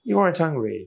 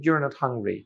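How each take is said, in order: First: 'Are' and 'not' are joined into one word. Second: 'Are' and 'not' are said as separate words. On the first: "আর এবং নটকে এক জায়গায়" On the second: "নটটাকে আলাদা"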